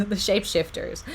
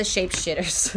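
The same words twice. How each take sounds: First: Said in the usual way. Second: Shapeshifters said without the f, as "shapeshitters"; slip to misprint. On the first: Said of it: "not shapeshifters". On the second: Real, not acted. Reader naming the card by its misprint, "shapeshifters" said as "shapeshitters". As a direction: drop the f from "shapeshifters": "shitters". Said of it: "I made a spelling mistake".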